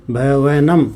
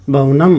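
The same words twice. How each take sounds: First: "भवनम" pulled apart into भ-वे-नम; careful dictation of "भवनम", each part held; syllable by syllable. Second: Said in the usual way. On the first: Shown as a demonstration. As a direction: sound out "भवनम" in separate, stretched syllables. Teacher repeats word broken into syllables.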